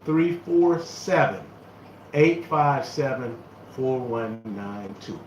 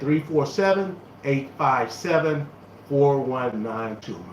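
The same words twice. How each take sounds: First: The number is read at a slow pace. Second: The number is read at a quick pace. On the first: The speaker calls it right. "I'm going to say it slowly" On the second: The speaker calls it wrong. "I am saying the number a little bit too fast"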